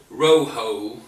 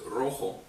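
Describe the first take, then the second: First: It has a strong, heavy English accent. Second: It sounds close to native Spanish pronunciation. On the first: The speaker calls it wrong. "if I say rojo in Spanish" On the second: The speaker calls it right. "instead of rojo"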